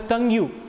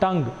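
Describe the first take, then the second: First: An extra vowel is added after the final consonant. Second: The word ends on the consonant with no vowel. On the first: The speaker calls it wrong. "tongue-u is wrong pronunciation" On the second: The speaker calls it right. "you should call it as tongue only"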